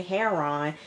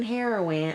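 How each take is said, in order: First: "heroin" squashed into two syllables, "hair-ron"; altered pronunciation. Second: Said in the usual way. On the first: Shown as a demonstration. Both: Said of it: "Okay, heroin".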